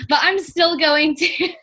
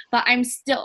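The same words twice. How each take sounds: First: Said in the usual way. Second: Put-on slips into a Jersey accent on "but I'm still"; a hint of Jersey accent, unintended; accidental Jersey accent. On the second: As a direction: say it with a light New Jersey accent. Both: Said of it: "oh, that was a Jersey accent".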